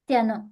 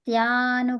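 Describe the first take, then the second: First: The first vowel is kept short. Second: The first vowel is held long. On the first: The speaker calls it right. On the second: The speaker calls it wrong.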